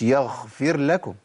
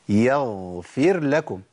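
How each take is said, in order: First: The gh is breathy and sounds like kh. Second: The gh is fully voiced with no breath. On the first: The speaker calls it wrong. "مش يغفر لكم" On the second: The speaker calls it right. "يبقى إيه؟"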